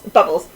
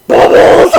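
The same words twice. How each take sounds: First: Said in the usual way. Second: Loud, furious bark; angry shout. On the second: Shown as a demonstration. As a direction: yell it as angry as you can. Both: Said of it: "in the angriest voice you can".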